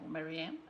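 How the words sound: The name is said with an English pronunciation.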